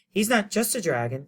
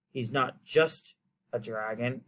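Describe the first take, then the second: First: It is said in a put-on girl's voice. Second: It is said in the reader's ordinary voice.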